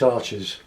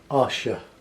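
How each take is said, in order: First: It ends without a final vowel sound. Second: It ends with a sounded final vowel. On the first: This is how English speakers say it. "being English, we call this Arches" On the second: This is how French speakers say it. "the French would say Arche and pronounce the E at the end"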